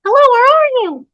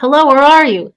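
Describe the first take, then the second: First: Very high, loud squeaky mimic; toy echo. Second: Loud, raised searching call. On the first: Toy mimics the searching woman, squeaky echo. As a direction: parrot the call like a talking toy. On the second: Acted. Woman searching the maze, calling out. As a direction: call out for someone lost. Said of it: "she called".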